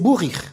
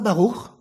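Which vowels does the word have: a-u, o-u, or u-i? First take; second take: u-i; a-u. First: The word is said with vowels u and i. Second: The word is said with vowels a and u. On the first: "ils prononcent en plus le vav shuruk i" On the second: This is the modern Hebrew pronunciation. "c'est pas baruch"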